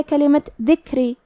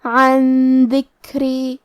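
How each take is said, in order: First: Said in the usual way. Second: عن ذکری very slow, nun hidden into a nasal hum; slow nasal ikhfa on عن ذکری; ikhfa with ghunna. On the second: Shown as a demonstration. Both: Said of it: "نون ساکن کو چھپاتے ہوئے اور غنہ کے ساتھ".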